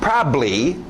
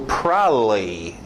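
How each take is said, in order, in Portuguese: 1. Um som b é mantido antes da terminação. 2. Os dois sons b são omitidos na palavra. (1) "esse é o mais comum ... Só aquele bly no final" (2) "Pessoas preguiçosas, e tem gringo que faz isso ... É só deixar os B's totalmente fora"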